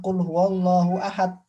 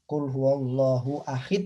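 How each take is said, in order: First: The last word ends with an 'a' vowel. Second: The last word ends with an 'i' vowel. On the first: The speaker calls it right. "Yang benar adalah" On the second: The speaker calls it wrong. "menggunakan kasroh bukan fathah"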